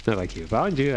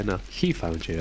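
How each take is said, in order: First: "found" leaned on in "Not like he found you"; stress on found. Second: "he" leaned on, low and quiet; stress on he. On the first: Player correcting the game line, leaning on found. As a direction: hit the word "found". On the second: Player correcting the game line, leaning on he. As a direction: hit the word "he". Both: Shown as a demonstration.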